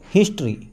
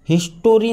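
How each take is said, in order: First: No vowel is said between t and r. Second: A full 'o' vowel is said before the r. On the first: The speaker calls it right. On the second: The speaker calls it wrong. "हिस्टोरी नाही वाचायचं"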